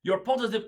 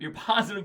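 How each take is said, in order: First: Hammed-up French accent on positive. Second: Said in the usual way. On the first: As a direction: slip into a playful French accent. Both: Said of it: "I gotta stop".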